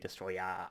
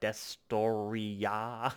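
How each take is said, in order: First: The name ends with an 'er' sound. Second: The name ends with a 'ya' sound. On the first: "I'm going to say Destroyer" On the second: "so it's got the ya at the end"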